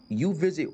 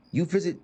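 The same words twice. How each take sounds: The two takes are said the same way.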